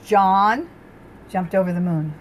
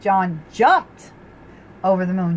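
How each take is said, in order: First: The stress is on John. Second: The stress is on jumped.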